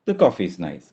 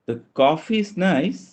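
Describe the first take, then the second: First: It is said as a simple confirmation. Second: It is said with a doubtful, reserved tone. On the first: The speaker confirms the coffee is good. "Confirmation" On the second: Something is not quite right with the coffee. "എന്തോ ഒരു പ്രശ്നമുണ്ട് എന്നർത്ഥം"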